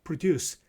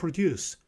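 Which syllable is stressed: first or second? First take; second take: second; second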